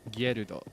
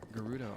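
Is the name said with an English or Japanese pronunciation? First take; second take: Japanese; English. First: The name is said with Japanese pronunciation. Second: The name is said with English pronunciation. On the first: "in Japanese it's just Gerudo" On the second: "the way that I pronounce that in English"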